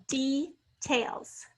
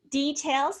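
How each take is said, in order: First: "details" broken after a long E, dee, pause, tails; "details" slowly, open first syllable held apart; split into syllables. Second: Said in the usual way. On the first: Shown as a demonstration. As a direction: sound out "details" as two separate syllables. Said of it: "sound long E in the first syllable". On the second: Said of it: "the two syllables".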